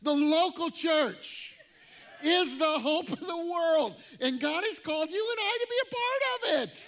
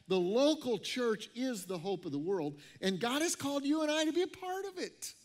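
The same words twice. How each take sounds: First: It is said in a fiery Pentecostal preaching style. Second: It is said in a calm, plain manner.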